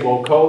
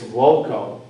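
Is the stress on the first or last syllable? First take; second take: last; first. First: The stress is on the last syllable. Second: The stress is on the first syllable. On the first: The speaker calls it wrong. "You would never say voco" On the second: The speaker calls it right. "Never accented on the last syllable"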